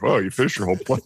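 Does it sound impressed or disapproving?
disapproving. It sounds disapproving and judgmental.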